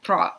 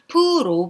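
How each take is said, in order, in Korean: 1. 모음이 짧은 'uh'처럼 들립니다. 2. 모음이 완전한 'o'처럼 들립니다. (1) "러 발음에 가깝기 때문에" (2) "프로 발음보다는"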